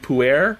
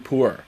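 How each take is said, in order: First: The word sounds like 'poo-er'. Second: The word sounds like 'poor'. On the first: The speaker calls it wrong. "I'm so used to saying puer" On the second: The speaker calls it right. "but it's actually poor"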